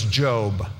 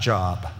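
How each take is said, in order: First: The vowel is long, rhyming with robe. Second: The vowel is short, rhyming with rob. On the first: The speaker calls it right. "whose name was Job" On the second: The speaker calls it wrong. "not Job"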